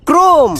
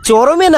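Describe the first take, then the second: First: It is said as one syllable, krome. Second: It is said as three syllables, cho-ro-meh. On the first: The speaker calls it right. "ক্রোম ক্রোম" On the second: The speaker calls it wrong. "ওটা চরমে না"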